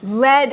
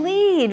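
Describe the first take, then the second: First: "Lead" said slowly like "led"; "Lead" pronounced LED, drawn out for the class; lead rhyming with bed. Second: "lead" said slowly like "leed"; "lead" pronounced LEED, drawn out for the class; lead rhyming with need. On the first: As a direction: say "Lead" with short EH, as the metal. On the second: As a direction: say "lead" with long EE, as heading a parade. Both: Shown as a demonstration. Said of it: "lead is also lead".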